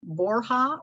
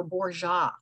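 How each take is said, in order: First: "Borja" said as BOR-ha; h pronunciation. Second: "Borja" said as BOR-zha; zh pronunciation. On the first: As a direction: say "Borja" with a breathy H for the J. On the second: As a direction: say "Borja" with a soft ZH for the J. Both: Shown as a demonstration. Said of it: "make sure I pronounce your last name correctly".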